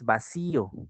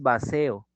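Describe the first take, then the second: First: The word is said with an i sound. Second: The word is said without an i sound. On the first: The speaker calls it right. "Con I. Se debe de mantener el I" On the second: The speaker calls it wrong. "no es vacío"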